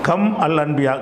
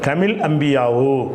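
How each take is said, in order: First: Kam is said apart, without a linking vowel. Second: Kam is joined to the next word with 'i'.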